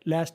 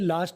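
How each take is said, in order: First: American accent with a flat 'a' vowel. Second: British accent with a broad 'ah' vowel.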